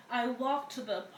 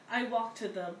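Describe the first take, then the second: No difference in how they are said.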